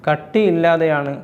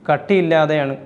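The two takes are said the same way.

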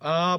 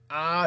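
First: The vowel is clean with closed vocal folds. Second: The vowel is tight with squeezed vocal folds. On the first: "붙여서 내기도 하고" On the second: "이렇게 쪼여서 내기도 하고"

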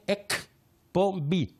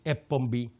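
First: The k sound in the middle is clearly pronounced. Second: The k sound in the middle is left out. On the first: The speaker calls it right. "είναι εκπομπή" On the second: The speaker calls it wrong. "δεν να λαλείς εκπομπή"

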